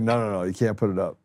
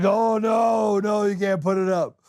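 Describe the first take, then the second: First: Said in the usual way. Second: High, hammed-up insistent protest; mock alarmed refusal. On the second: Host imitating reviewers vetoing the clip, high mock alarm. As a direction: imitate a panicked objector, pitched way up.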